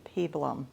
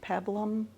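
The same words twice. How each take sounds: First: The first vowel is said long. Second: The first vowel is said short. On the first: "it only has one B, so it should be peplum" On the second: "it says it's short sound"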